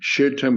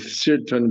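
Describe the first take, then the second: First: The word begins with an sh sound. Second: The word begins with an s sound. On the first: "with a shin" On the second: "with a sin"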